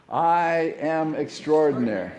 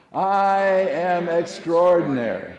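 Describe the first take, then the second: First: Slow, firm affirmation, a bit louder; declaring it aloud. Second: Loud, high, slow proclamation; like you mean it. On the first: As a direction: say it like a first try, measured and steady. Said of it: "let's try that one on for size". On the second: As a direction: belt it out with full conviction. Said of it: "say it like you mean it". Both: Shown as a demonstration.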